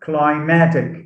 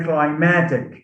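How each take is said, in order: First: The stress is on the second syllable. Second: The stress is on the second syllable.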